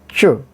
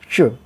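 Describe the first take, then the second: No difference in how they are said.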